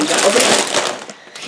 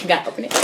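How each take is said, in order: First: Whisper. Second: Said in the usual way. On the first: Shown as a demonstration. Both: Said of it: "A S M R".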